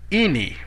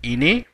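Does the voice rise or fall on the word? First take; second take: fall; rise. First: The voice goes high then low. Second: The voice rises.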